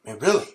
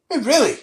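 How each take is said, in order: First: Said in the usual way. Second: Incredulous. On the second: Shown as a demonstration.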